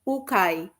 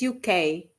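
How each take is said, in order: First: It is said as a single two-syllable word. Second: It is said as two separate letter names. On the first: It means second-hand stuff. "if I stand to my mother tongue" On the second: It names the country. "U K is U K"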